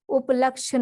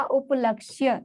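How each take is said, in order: First: उपलक्ष्य without the final "y" glide; wrong pronunciation. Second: उपलक्ष्य with a clear final "ya"; correct pronunciation. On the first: Teacher showing the error, उपलक्ष्य said without its "ya". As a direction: end उपलक्ष्य as "laksha". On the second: Teacher giving the right word, उपलक्ष्य ending in "kshya". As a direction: sound the य at the end of उपलक्ष्य. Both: Shown as a demonstration. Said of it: "उपलक्ष्य नहीं होता".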